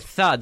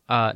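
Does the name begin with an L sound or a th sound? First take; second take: th sound; L sound. First: The name begins with a th sound. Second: The name begins with an l sound. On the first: The speaker calls it right. "I'm like, no, tha" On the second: The speaker calls it wrong. "They go, lat"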